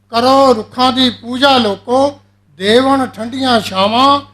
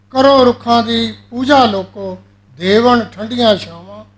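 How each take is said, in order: No difference in how they are said.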